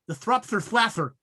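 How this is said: It is said with a put-on lisp.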